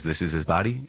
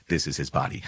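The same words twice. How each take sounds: First: "body" lifted in a rising tune; questioning quote. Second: Lower, settled "This is his body"; understated, lowered statement ending on "body"; matter-of-fact answer. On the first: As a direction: leave "body" hanging upward like an open question. Poses the meaning as question. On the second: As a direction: drop the pitch and land "body" as final. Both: Shown as a demonstration.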